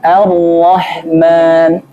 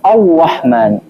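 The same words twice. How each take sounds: First: The opening sound is light with unrounded lips. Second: The opening sound is heavy with rounded lips. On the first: The speaker calls it right. "Gimana bacanya? ... Yang penting jangan dimonyongin" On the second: The speaker calls it wrong. "Bukan Ar-Rahman. Ini namanya takalluf, berlebihan"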